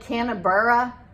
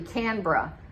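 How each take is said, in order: First: The name is said as its spelling suggests. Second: The name is said unlike its spelling suggests. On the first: The speaker calls it wrong. "it looks like it's spelled Canberra" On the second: The speaker calls it right. "but it's actually Canberra"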